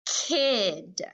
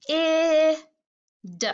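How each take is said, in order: First: Put-on "kid" drawn out in one syllable; blended word. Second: "K, I, d" as separate sounds, short-i held; sounded out. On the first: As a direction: blend the sounds into a falling "kid". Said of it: "just like that". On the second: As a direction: puff "K", hold "I" as ih, tap "d". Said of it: "Let's try the first sound". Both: Shown as a demonstration.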